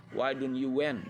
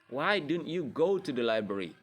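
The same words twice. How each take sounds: First: Stressed wrong-form went at the end. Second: Said in the usual way. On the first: Shown as a demonstration. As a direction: stress went as the mistake to avoid. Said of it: "Nggak, tapi pakai base verbnya". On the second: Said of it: "tapi pakai base verbnya".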